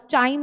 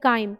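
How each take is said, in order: First: The word begins with a 'ch' sound. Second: The word begins with a 'k' sound. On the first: The speaker calls it wrong. "चाइम नहीं बोलना please." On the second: The speaker calls it right. "Please pronounce it like काइम।"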